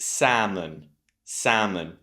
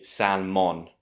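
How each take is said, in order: First: Salmon as "SAM-un"; salmon with a long first vowel and no L; silent L. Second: Salmon as "SAL-mon"; salmon mispronounced exactly as spelt; wrongly pronounced L. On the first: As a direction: skip the L in salmon, weak last vowel. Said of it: "letter that's not pronounced is the L". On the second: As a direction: sound the L in salmon, full O at the end. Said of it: "So we do not say salmon". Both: Shown as a demonstration.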